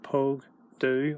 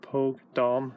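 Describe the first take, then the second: First: It is said in the Ulster dialect form. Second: It is said in a non-Ulster dialect form. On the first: "I can also in Ulster here do for this" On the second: "or Pogue Dom, however you want to pronounce that"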